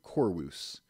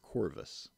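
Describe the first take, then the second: First: The middle consonant is soft, close to a W. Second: The middle consonant is a hard V sound. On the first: "pronounced a little more softly" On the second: "instead of Corvus"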